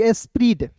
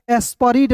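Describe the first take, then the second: First: एस्प्रीड said with no vowel between p and r; teacher gives एस्प्रीड as the correct reading; right reading. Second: एस्परीड said with an extra vowel; teacher gives एस्परीड as the reading to avoid; wrong reading. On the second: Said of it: "एस्परीड नहीं पढ़ेंगे". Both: Shown as a demonstration.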